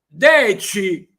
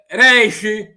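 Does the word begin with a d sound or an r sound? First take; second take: d sound; r sound. First: The word begins with a d sound. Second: The word begins with an r sound. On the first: "el numeral deci" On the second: "También alguien lo dice reishi"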